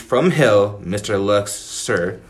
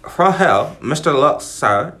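First: It is read in a plain everyday accent. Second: It is read in a put-on British accent.

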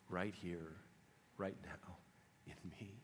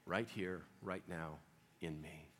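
First: It is whispered. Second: It is spoken in a normal voice.

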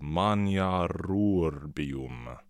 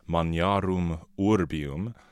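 First: The two words are run together, dropping sounds. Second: The two words are said separately. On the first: "what we're going to be hearing in the music is simply maniarurbium" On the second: "a closed consonant ending eliding into a vowel ending"

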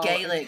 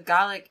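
First: It is the pronunciation used for the Irish language. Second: It is the pronunciation used for the Scottish language. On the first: It names the Irish language. "and Gaelic is the Irish" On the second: It names the Scottish language. "So Gaelic is, like, the Scottish"

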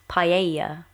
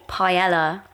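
First: Paella is said with a Spanish pronunciation. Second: Paella is said with an English pronunciation. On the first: The speaker calls it right. "really it's pronounced paella" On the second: The speaker calls it wrong. "We say paella"

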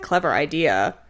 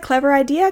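First: It is said at a lower pitch. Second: It is said at normal pitch.

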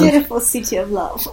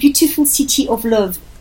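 First: It is said in her ordinary accent. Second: It is said in a French accent.

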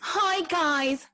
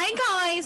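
First: It is said in a polished presenter voice. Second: It is said in a casual, relaxed voice.

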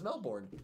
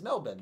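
First: Melbourne is pronounced the American way. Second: Melbourne is pronounced the Australian way. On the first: "if you're in America, the right way to say it is Melbourne" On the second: "The right way to say it if you were in Australia is Melbourne"

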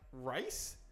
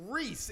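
First: The vowel sounds like 'eye', as in rice. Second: The vowel sounds like 'ee', as in see. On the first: The speaker calls it wrong. "my sister responds to that Reese like rice" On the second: The speaker calls it right. "No. It's Reese"

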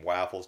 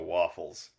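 First: The word has an unusual, old-fashioned pronunciation. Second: The word has the usual modern pronunciation. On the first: This is how it was said a century ago. "we've changed the pronunciation from waffles" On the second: This is how it is said today. "to waffles"

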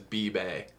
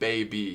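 First: The word starts with 'bee' and ends with 'bay'. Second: The word starts with 'bay' and ends with 'bee'. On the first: "He like literally like flips the vowels" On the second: "Instead of saying baby"

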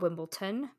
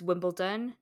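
First: It is said with a T sound. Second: It is said with a D sound. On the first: The speaker calls it wrong. "not Wimbledon. There's no T" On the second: The speaker calls it right. "it's Wimbledon, There's no T, it's a D"

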